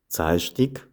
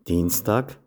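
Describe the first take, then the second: First: It is said with Sathmar Swabian dialect pronunciation. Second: It is said with Standard German pronunciation. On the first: "dann anschließend im Sattmar-Schwäbischen" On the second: "zuerst im Hochdeutschen"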